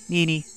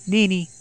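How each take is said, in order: First: Put-on a child's soft tearful call for Nini. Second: Much higher, desperate cry of Nini; higher tearful cry. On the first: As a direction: whimper his name, hurt. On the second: Acted. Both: Satoko calls for her brother.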